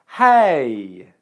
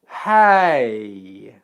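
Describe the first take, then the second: First: The word is said at a normal speed. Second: The word is said more slowly and drawn out.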